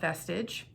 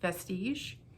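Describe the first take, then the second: First: The word has an English-style pronunciation. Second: The word has a French-style pronunciation. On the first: The speaker calls it wrong. "not Vestige" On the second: The speaker calls it right. "it's a French word"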